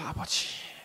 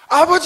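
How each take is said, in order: First: It is said quietly and shyly. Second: It is said loudly and boldly.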